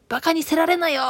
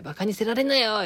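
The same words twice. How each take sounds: First: High, loud scolding of バカにせられなよ in Okayama dialect; angry Okayama scolding. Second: バカにせられなよ said with only a touch of anger, near normal level; mild Okayama scolding. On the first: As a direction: throw バカにせられなよ out sharply, much higher and louder. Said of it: "岡山弁じゃなーって思うて". (高く強く岡山弁で叱る) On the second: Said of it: "こういう風に怒るよなーと思って". (軽く岡山弁で叱るまね) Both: Retold or imitated.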